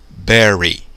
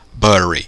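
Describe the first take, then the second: First: The first vowel sounds like 'eh'. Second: The first vowel sounds like 'uh', as in 'but'. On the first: The speaker calls it right. "A pronúncia é com E" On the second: The speaker calls it wrong. "então aqui deve ser o quê?"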